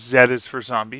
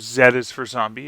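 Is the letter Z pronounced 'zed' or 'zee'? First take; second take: zed; zed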